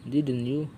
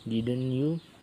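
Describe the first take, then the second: First: The voice falls on the tag. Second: The voice rises on the tag. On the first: The speaker wants agreement and expects no answer. "If our voice goes down in the text, we want the listener to agree with us" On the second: It is a real question that needs an answer. "If our voice goes up on the text, we are asking us we are asked a really question which needs an answer"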